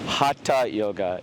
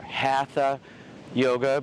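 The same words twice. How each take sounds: First: The middle consonant is a 't' sound. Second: The middle consonant is an English 'th' sound. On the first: The speaker calls it right. "put a T on it, ta, ta, ta, Hatha Yoga is really the correct way of pronouncing it" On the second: The speaker calls it wrong. "We say Hatha or Hatha Yoga"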